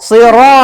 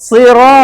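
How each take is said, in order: No difference in how they are said.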